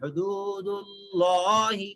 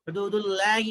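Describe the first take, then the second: First: The L in Allahi is heavy and thick. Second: The L in Allahi is light and thin. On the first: The speaker calls it right. "लाम को मोटा पढ़ेंगे" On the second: The speaker calls it wrong. "हुदूदुल्लाहि नहीं पढ़ेंगे"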